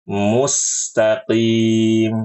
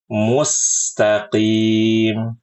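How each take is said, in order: The two takes are said the same way.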